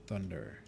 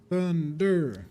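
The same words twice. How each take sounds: First: Said in the usual way. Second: Higher, louder "Thunder." rung out like a spell name; dramatic loud call. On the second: Acted. Streamer hyping up a game skill name, loud and dramatic. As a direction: call the word out with a dramatic flourish. Repeats word.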